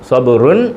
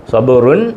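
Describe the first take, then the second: The two takes are said the same way.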